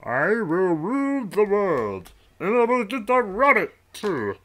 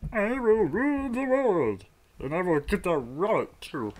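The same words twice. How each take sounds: First: Megalomaniac rant. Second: High villain voice, gloating; megalomaniac rant. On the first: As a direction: belt it out like a cartoon villain. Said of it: "I can't get the voice down". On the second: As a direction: proclaim it like a cartoon villain. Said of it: "let me try that again". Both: Pretend.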